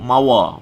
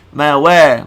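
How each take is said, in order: First: The syllable 'wa' is heavy and thick. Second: The syllable 'wa' is light and thin. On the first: The speaker calls it wrong. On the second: The speaker calls it right.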